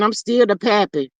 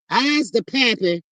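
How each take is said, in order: First: Said in the usual way. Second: Slow, dopey mock of the ex saying "I's"; mocking his voice. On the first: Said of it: "I guess he's saying". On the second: Mocking the ex's boast in a slow dopey voice. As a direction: drag out a dumb-guy "I's the pappy" slowly. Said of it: "Is that what he's saying?".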